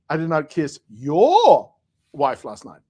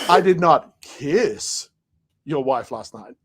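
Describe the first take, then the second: First: The stress falls on the word your. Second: The stress falls on the word kiss.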